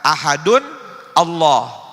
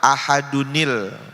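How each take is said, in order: First: Ahadun is followed by a separate glottal Allah. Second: Ahadun runs into Allah with a linking i. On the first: The speaker calls it wrong. "Banyak orang mengira tanwin ketemu hamzah, dibaca" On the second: The speaker calls it right.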